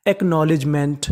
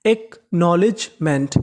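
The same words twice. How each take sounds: First: Said in the usual way. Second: acknowledgement slowly, split as एक - knowledge - meant; syllable by syllable. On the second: Shown as a demonstration. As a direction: spell out the sound of acknowledgement in parts. (Acknowledgement को हिस्सों में धीरे) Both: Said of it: "तो पूरी meaning क्या बनी?".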